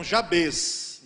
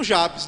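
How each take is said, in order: First: "Jabes" stressed on the final syllable, ja-BES; Hebrew stress. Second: "Jabes" stressed on the first syllable, JA-bes; usual Portuguese stress. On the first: Pastor demonstrating the Hebrew pronunciation, final stress ja-BES. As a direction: land on the end of "Jabes". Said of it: "sempre no final". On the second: Pastor giving the familiar pronunciation, JA-bes. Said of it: "a gente tá acostumado com o quê?". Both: Shown as a demonstration.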